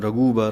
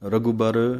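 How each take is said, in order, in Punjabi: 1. ਪਹਿਲੇ ਵਿਅੰਜਨ ਤੋਂ ਬਾਅਦ ਵਾਲੀ ਮਾਤਰਾ ਲੰਬੀ ਹੈ। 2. ਪਹਿਲੇ ਵਿਅੰਜਨ ਤੋਂ ਬਾਅਦ ਵਾਲੀ ਮਾਤਰਾ ਛੋਟੀ ਹੈ। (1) "ਜ਼ਿਆਦਾ ਦਲੈਂਕੜਾਂ ਲਾ ਕੇ ਰਘੁਬਰ ਨਹੀਂ ਕਹਿ ਦੇਣਾ" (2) "ਘੱਗੇ ਦੇ ਪੈਰ ਦੇ ਵਿੱਚ ਔਂਕੜ ਦੀ ਆਵਾਜ਼ ਦੇਣੀ ਹੈ"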